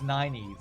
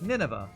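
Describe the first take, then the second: First: The name is said as Nynaeve. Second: The name sounds like the biblical city Nineveh. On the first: The speaker calls it right. "it tells you it's pronounced Nynaeve" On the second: The speaker calls it wrong. "I was always like Nineveh, because it sounds like a biblical name"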